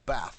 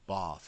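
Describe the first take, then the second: First: The A vowel is short. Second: The A vowel is long. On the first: "is a short A" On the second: "is a long A"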